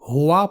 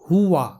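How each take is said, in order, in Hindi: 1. पहला स्वर लंबी 'o' वाली ध्वनि है। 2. पहला स्वर छोटी 'u' वाली ध्वनि है। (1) "मजहूल तरीके से हुआ पढ़ते हैं जो कि गलत तलफ़ुज़ है" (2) "सही तलफ़ुज़ है हुआ"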